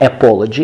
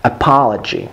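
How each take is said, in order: First: "apology" starting with a full æ, as in cat; mispronounced "apology" with no schwa; wrong pronunciation demo. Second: "apology" with a weak "uh" start and open "ah"; "apology" as uh-PAH-luh-jee; correct schwa demo. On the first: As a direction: give "apology" an unreduced first vowel and rounded o. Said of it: "It's not apology". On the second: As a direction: reduce the first vowel of "apology", stress a long "pah". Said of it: "it's apology". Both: Shown as a demonstration.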